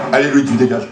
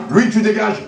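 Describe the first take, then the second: First: Said in the usual way. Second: Firm raised order. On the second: Real, not acted. Throwing the guest out.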